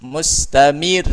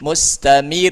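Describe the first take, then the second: The two takes are said the same way.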